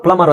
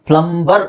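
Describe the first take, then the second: First: ಪ್ಲಮರ್ as "plummar"; silent b. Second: Slow ಪ್ಲಂಬರ್ split "plum-bar"; b sounded. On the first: Teacher gives correct plumber, b left silent. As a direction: say ಪ್ಲಮರ್ with m alone, no b. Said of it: "ಅಂತ ಹೇಳ್ಬೇಕು". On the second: Teacher builds plumber from plum, b sounded slowly. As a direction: stretch ಪ್ಲಂಬರ್ to show its b. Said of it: "ಅದಕ್ಕೆ ನಾವು ಪ್ಲಮರ್ ಅಂತ ಹೇಳ್ಬೇಕು". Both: Shown as a demonstration.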